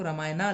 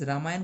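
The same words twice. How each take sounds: First: रामायणा with a long aa added after the n; spelling-based misreading. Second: रामायण ending on the consonant n, no final aa; correct short ending. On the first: Teacher shows how English spelling misleads, spelling-based misreading. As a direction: open out the end of रामायणा into aa. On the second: Teacher contrasts the name with its English spelling, correct short ending. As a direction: close रामायण on the n sound. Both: Shown as a demonstration. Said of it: "हम उसको रामायणा नहीं पढ़ते".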